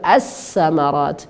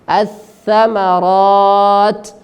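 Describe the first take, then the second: First: The middle consonant is an 's' sound. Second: The middle consonant is a 'th' sound. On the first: The speaker calls it wrong. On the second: The speaker calls it right.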